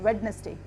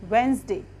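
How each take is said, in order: First: The d sound is pronounced after the first vowel. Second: The d sound is left out after the first vowel. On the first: The speaker calls it wrong. "Mostly लोग गलत बोलते हैं" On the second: The speaker calls it right. "इसमें डी silent होता है"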